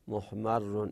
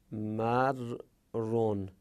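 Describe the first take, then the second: First: Said in the usual way. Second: Drawn-out syllable by syllable; slow careful reading. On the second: Shown as a demonstration. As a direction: spell the word out slowly, x0.4. (آهسته و هجا به هجا)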